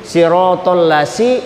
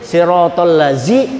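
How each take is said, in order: First: The consonant is an 's' sound as in 'sun'. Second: The consonant is a 'z' sound as in 'zoo'. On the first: "itu huruf sin" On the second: "itu huruf zai"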